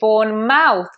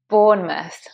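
First: The ending has a full 'mouth' vowel. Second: The ending is reduced to a short 'muth'. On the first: The speaker calls it wrong. "please be careful not to say Bournemouth" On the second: The speaker calls it right. "That mouth becomes a muth"

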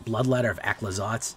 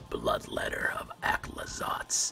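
First: It is said in a normal speaking voice. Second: It is said in a whisper.

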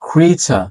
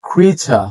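Both takes have the same delivery.

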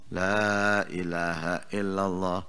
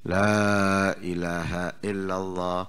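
The two takes are said the same way.

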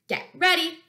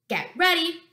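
Both takes have the same delivery.

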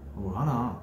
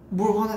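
First: It sounds like real, low-voiced anger. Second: It sounds like playful, pretend anger.

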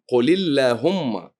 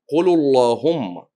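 First: The L in Allahumma is light, not emphatic. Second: The L in Allahumma is heavy and emphatic. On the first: The speaker calls it right. "تلفظ من دون تفخيم" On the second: The speaker calls it wrong. "هو قرأ اللهم بالتفخيم"

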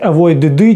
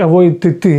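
First: The ending is a bare d sound. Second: The ending is a bare t sound. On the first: "Ми ж не будемо читати avoid" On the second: "чи avoid ти. Незручно"

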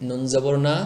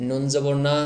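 No difference in how they are said.

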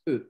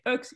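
First: No consonant sound is heard at the end. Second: A consonant sound is heard at the end. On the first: The speaker calls it right. "it's just E" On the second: The speaker calls it wrong. "you don't say UX"

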